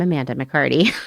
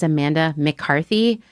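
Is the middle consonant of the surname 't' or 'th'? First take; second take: t; th. First: The surname is said with a 't' sound. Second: The surname is said with a 'th' sound. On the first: The speaker calls it right. "when we all know I'm" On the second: The speaker calls it wrong. "people introducing me as"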